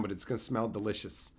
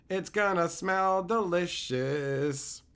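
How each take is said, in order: First: Said in the usual way. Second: Savoring repeat. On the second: Shown as a demonstration.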